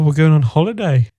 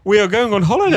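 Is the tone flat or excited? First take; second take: flat; excited. First: It is said flatly, without excitement. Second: It is said with excitement.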